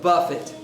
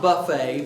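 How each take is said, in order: First: The stress is on the first syllable. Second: The stress is on the second syllable. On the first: It means to strike or discipline. The speaker calls it right. "but buffet" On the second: It means a spread of food. The speaker calls it wrong. "not buffet"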